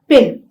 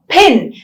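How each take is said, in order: First: The p is released without a puff of air. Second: The p is released with a puff of air. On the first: The speaker calls it wrong. "is not pin" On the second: The speaker calls it right. "There is a small breath of air that is released"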